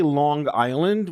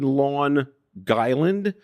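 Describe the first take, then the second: First: The second word starts with a vowel, no g. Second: A hard g sound begins the second word. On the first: The speaker calls it wrong. "You did say Long Island, which I should correct you" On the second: The speaker calls it right. "It's actually Lawn Guyland"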